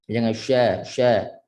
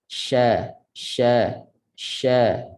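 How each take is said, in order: First: "sya" said with rounded, pushed-out lips; wrong rounded "sya"; pouted sya. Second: "sya" with flat, unrounded lips; correct sya. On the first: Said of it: "Tak perlu muncul pada huruf shin". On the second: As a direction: say "sya" with the tongue mid-mouth, lips relaxed. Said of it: "Ha, begitu". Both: Shown as a demonstration.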